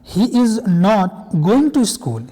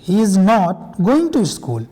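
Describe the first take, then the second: No difference in how they are said.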